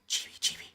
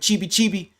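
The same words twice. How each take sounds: First: It is said in a soft whisper. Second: It is said in a normal speaking voice. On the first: "but then you can say" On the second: "you can say it in a regular voice"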